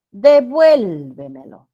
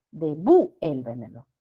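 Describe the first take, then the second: First: Devuélvemelo loud and stretched on VUEL, tail dropping away; stress on vuel. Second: Devuélvemelo broken as de-VU-el-ve-me-lo, punched on VU; wrong hiatus. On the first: Teacher presents the word, Devuélvemelo with loud long VUEL. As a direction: hit VUEL hard and slow in Devuélvemelo. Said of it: "La sílaba tónica es vuel". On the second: Teacher shows the nonexistent word, devuélvemelo as de-VÚ-el-vemelo. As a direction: split devuélvemelo after a stressed VU. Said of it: "Y la palabra sería". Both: Shown as a demonstration.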